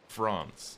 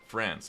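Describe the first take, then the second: First: It is said in a British accent. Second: It is said in an American accent. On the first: "as a British person, I'd say" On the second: "Americans would say"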